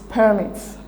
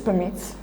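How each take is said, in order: First: It is said as the noun form. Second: It is said as the verb form. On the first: It is the noun meaning licences. "the noun" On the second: It is the verb meaning allows. "the verb"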